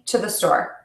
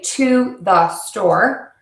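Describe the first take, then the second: First: The words run together with short reduced vowels. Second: Each word is said separately with full vowels. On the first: The speaker calls it right. "I link everything" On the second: The speaker calls it wrong. "I don't say"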